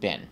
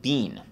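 First: The vowel is short, like 'bin'. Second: The vowel is long, like 'bean'. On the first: This is how it is not said in London. "They don't pronounce it bin" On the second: This is how it is said in London. "in London, they pronounce it bean"

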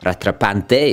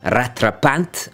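First: The word is said with an Italian-sounding flair. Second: The word is said plainly, without Italian flair.

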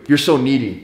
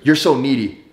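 First: It is said in the speaker's normal voice. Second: It is said in an imitated woman's voice.

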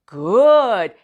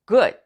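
First: The vowel is drawn out long. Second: The vowel is kept short. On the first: The speaker calls it wrong. "good 이렇게 말하면 그거 장모음 아닌가요?" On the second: The speaker calls it right. "사실은 그냥 원래는 good"

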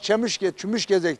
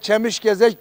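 First: It is said in the local dialect form. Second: It is said in the standard Turkish form. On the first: Everyone locally says it this way. "ama Çemiş Gezek derler herkes" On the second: Few local people actually say it this way. "Kimse Çemiş Gezek 100 kişiden bir tanesi söyler"

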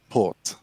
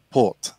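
Both takes have the same delivery.

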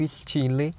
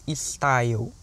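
First: The word is pronounced the French way. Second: The word is pronounced the English way. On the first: The speaker calls it right. "que é como se diz em francês" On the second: The speaker calls it wrong. "na pronúncia em inglês da palavra"

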